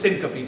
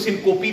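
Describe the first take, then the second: First: It has three syllables with a reduced middle vowel. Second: It has three syllables with an o middle vowel. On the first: The speaker calls it right. "इसको सिनकपी कहना" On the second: The speaker calls it wrong. "इसको सिनकोपी भी नहीं कहना"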